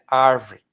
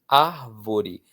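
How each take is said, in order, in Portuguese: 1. A palavra é falada com só duas sílabas. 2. A palavra é falada com as três sílabas. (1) "na boca das pessoas menos favorecidas economicamente, vira árvore" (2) "a palavra árvore"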